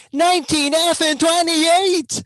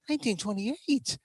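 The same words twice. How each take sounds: First: Loud, high and drawn out; exasperated outburst. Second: Softer, raised pitch; subdued repeat. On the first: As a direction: exclaim the year slowly in high exasperation. Exasperated repeat of the outdated year. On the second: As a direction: pull back to a small, high voice. Same year repeated after the outburst. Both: Acted.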